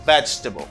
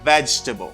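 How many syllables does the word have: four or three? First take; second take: three; three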